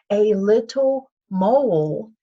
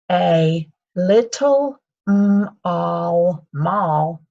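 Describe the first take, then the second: First: "mole" with a long O, like "mohl"; correct reading. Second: Slow sounding out, "m-all mall" with an aw sound like mall; misreading. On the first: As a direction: read "mole" clearly with a long O sound. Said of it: "magic E makes the O say the O sound". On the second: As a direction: deliberately misread "mole" as "mall", drawn out. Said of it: "That doesn't make sense". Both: Shown as a demonstration.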